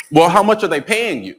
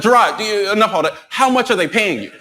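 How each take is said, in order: First: Lightly voiced friend, pitched up; mildly put-on higher voice, probing; pointed homegirl question. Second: High-pitched imitation of a friend cutting in; mock-exasperated friend demanding an answer; interrupt, pitched high, and insist; impatient homegirl. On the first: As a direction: imitate a friend getting to the money. Homegirl asks about the money. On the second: Homegirl cuts him off impatiently.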